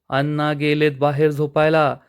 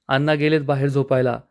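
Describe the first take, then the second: First: अण्णा गेलेत बाहेर झोपायला repeated with weight on झोपायला and a firm falling end; a mildly annoyed, pointed repeat of the hint. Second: Said in the usual way. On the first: A narrator's reading. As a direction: lean on झोपायला to make him get it, mildly irritated. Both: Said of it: "यशोदाला खूप राग येतो".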